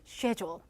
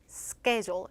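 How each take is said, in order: First: The word is said with a British pronunciation. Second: The word is said with an American pronunciation. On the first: "영국 호주식 발음은" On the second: "미국식 발음"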